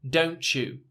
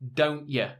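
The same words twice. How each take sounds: First: The t and y blend into a ch sound. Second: The t is replaced by a glottal stop. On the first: "It's actually a ch" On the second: "if you're going to say it within a British accent"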